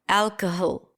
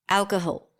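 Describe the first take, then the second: First: The last vowel is reduced to a schwa. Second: The same.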